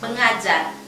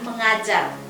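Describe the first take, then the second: First: The stress falls on the part ajar. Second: The stress falls on the part meng. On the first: "menekankan suku kata ajar" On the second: "menekankan suku kata meng"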